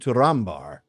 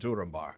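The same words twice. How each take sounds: First: The stress falls on the second syllable. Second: The stress falls on the first syllable. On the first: The speaker calls it right. "But it is Turin Turambar" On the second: The speaker calls it wrong. "if you stick with the old"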